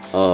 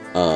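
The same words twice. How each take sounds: Both takes have the same delivery.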